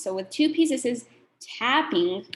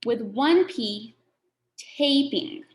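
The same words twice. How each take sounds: First: "tapping" said slowly, short a; slow clear tapping. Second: "taping" said slowly, long a; slow clear taping. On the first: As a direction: stretch "tapping" so the short a is heard. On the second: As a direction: draw out "taping" so the long a is heard. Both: Shown as a demonstration. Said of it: "Listen to the difference".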